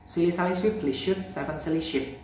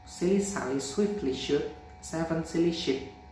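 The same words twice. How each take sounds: First: It is spoken at a fast speed. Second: It is spoken at a normal speed. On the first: "Fast mode" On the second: "Normal mode"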